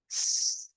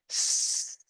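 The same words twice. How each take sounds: First: Soft long snake hiss; drawn-out s like a snake. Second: Long unvoiced snake hiss; drawn-out s like a snake. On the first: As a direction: let the air hiss out slowly. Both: Shown as a demonstration. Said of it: "make a hiss sound like snake".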